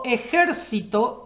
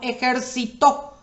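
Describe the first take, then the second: First: The stress is on the third-to-last syllable. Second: The stress is on the last syllable. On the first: "es esdrújula, porque la sílaba que soporta la tilde o el acento es la antepenúltima" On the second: "Ahí es aguda, lleva tilde en la última sílaba"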